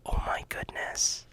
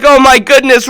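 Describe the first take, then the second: First: Whispered in awe, "Oh my goodness" barely breathed; awed whisper. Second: High, loud "Oh my goodness" bursting out; thrilled exclamation. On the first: Real, not acted. [name] reacting to the Quran for kids idea, awed whisper. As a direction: breathe it out in wonder. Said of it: "Just hearing it made me excited". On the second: Retold or imitated. [name] reading the Netflix email, loud thrilled exclamation. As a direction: exclaim it with big joy. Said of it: "I was like".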